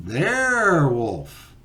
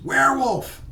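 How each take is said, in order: First: Loud, high, stretched-out call; drawn-out joke reply. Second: High, loud holler of warning; hollered alarm. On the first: Other walker answers as the joke's punchline, drawn-out call. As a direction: stretch the first syllable out long and loud. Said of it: "the other person says". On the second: Walker hollers in the creepy woods, hollered alarm. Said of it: "one of them hollers". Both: Acted.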